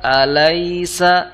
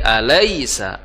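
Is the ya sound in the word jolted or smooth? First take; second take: smooth; jolted. First: The ya sound glides out softly without a jolt. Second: The ya sound is pushed out with a jolt. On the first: The speaker calls it right. "layyin itu artinya lembut" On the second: The speaker calls it wrong. "itu dihentakkan seperti itu kurang tepat"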